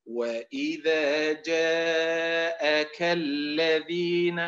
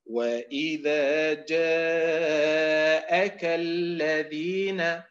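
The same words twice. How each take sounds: First: وإذا جاءك الذين chanted slowly, جاءك run into الذين like جاء كالذين; slow chant with جاءك merged into the next word; wrong recitation. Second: وإذا جاءك الذين chanted slowly with the hamza of جاءك clear; correct recitation. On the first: Teacher showing students the wrong reading, slow chant. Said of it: "وليست". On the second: Teacher reciting the verse for students, slow chant. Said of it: "قوله تعالى". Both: Shown as a demonstration.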